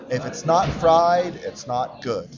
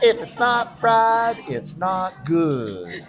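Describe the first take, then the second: First: It is said in the speaker's own accent. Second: It is said in an imitated Southern accent.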